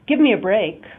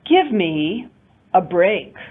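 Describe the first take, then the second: First: It is said as one unbroken phrase. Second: It is split into two phrases with a break. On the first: This is the normal, neutral way to say it. "as one intonation unit. That would be probably the normal way of saying it" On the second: The speaker is angry, upset or exasperated. "if I were really angry or upset or exasperated... separating it into two different intonation units"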